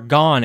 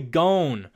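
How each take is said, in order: First: The name is pronounced the Japanese way. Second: The name is pronounced the English-dub way. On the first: The speaker calls it wrong. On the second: The speaker calls it right.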